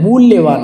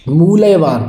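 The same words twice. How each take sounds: First: मूल्यवान with held half l; correct pronunciation. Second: मूल्यवान with a loose "moo-la-ye"; wrong pronunciation. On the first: Teacher correcting it, मूल्यवान with doubled l. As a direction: say मूल्यवान as "mool-lye-vaan". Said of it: "मूल्यवान होता है". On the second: Teacher showing the error, मूल्यवान with full la. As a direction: say मूल्यवान as "moo-laye-vaan". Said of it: "बिल्कुल गलत है". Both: Shown as a demonstration.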